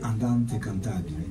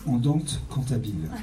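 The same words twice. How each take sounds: First: It is said with an Italian accent. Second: It is said with a French accent. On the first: "En italien" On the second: "avec l'accent français"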